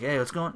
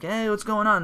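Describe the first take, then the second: First: Said in the usual way. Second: "Hey, what's going on?" lifted high in a playful, innocent tone; mock-innocent greeting said well above normal pitch. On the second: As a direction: play dumb, pitched up high. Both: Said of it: "He's like".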